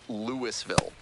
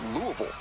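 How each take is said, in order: First: The name is said the way outsiders say it. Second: The name is said the way locals say it. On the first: The speaker calls it wrong. "just don't call it Louisville" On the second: The speaker calls it right. "If you want to sound like a local"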